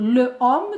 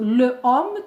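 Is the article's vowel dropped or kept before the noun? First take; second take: kept; kept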